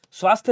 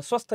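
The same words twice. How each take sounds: First: स्वास्थ्य with long aa and final y; correct long vowel. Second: स्वस्थ with short a, no final y; wrong short vowel. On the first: Teacher correcting students, स्वास्थ्य as "swaasthya". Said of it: "होता है". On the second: Teacher showing students the error, short-vowelled स्वस्थ. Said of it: "नहीं होता". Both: Shown as a demonstration.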